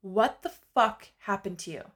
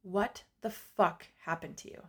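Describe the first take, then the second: First: "fuck" hit harder, falling away after it; retold emphatic self-confrontation. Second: Retold self-confrontation. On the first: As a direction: punch "fuck" as you confront yourself. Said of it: "And I said it again". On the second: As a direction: ask yourself in quiet disbelief, word by word. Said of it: "and I said".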